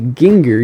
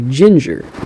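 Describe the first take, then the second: First: It starts with a hard G sound. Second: It starts with a soft G sound. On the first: The speaker calls it wrong. "You don't say ginger" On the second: The speaker calls it right. "you say ginger"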